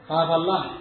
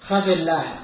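First: The first vowel is long, with no added vowel. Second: The first vowel is short, with a linking i. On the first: The speaker calls it wrong. "قد يقال خاف الله" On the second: The speaker calls it right. "فالصواب خفي الله"

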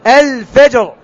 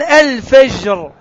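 First: The j sound is firm and stopped. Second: The j sound is soft and continuous. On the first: The speaker calls it right. "الفجر جيم تنطق الجيم صحيحة" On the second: The speaker calls it wrong. "هذه جيم فيها رخاوة"

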